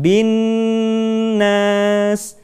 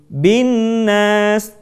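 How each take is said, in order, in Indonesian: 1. Bunyi sengau n ditahan lama. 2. Bunyi sengau n diucapkan terburu-buru dan singkat. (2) "tidak membacanya dengan tergesa-gesa"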